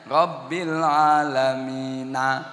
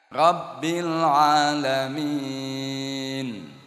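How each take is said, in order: First: The last word ends on a vowel. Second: The last word ends on a consonant. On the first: The reader does not stop at the end of the verse. The speaker calls it wrong. "Gak oleh wong wakof kok dibunyikan" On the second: The reader stops at the end of the verse. The speaker calls it right.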